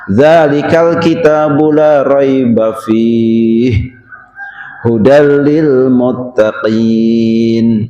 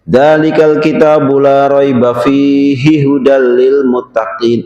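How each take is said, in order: First: It is read with a pause after 'fi'. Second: It is read straight through without any pause. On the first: The speaker calls it right. "Tapi enaknya" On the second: The speaker calls it wrong. "kalau orang lanjut misalnya dalam satu nafas"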